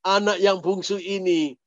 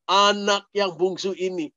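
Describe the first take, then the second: No difference in how they are said.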